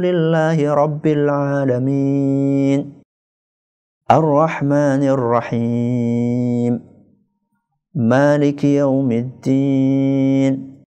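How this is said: Each verse ends with a clear pause. It leaves time to reflect on each verse. "Ayat per ayat"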